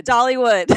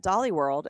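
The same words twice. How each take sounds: First: "Dollywood" said carefully and louder, ending in "wood"; corrected name. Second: Says "Dolly World" with a clear "World" at the end; "Dolly World", the mixed-up park name, said plainly; mistaken name. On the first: Corrected by her friend, she repeats "Dollywood" louder. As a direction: repeat "Dollywood" back firmly with a falling end. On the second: Friend slips and says "Dolly World" instead of Dollywood. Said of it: "You combined Wally World with Dollywood". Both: Real, not acted.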